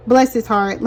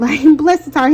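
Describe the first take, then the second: First: Said in the usual way. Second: Amused, giggling repeat; laughing. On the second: Real, not acted. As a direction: laugh through it, a bit higher and louder.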